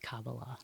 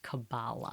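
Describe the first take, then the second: First: It uses the original, non-Americanized pronunciation. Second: It uses the Americanized pronunciation. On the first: "It's Kabbalah" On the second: "the Americanized version is Kabbalah"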